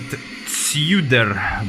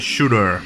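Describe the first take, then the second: First: The name begins with a 'ts' sound. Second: The name begins with a 'sh' sound. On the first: The speaker calls it wrong. "some people would pronounce it Tsuder" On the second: The speaker calls it right. "but it's actually pronounced uh, as uh, Shooter"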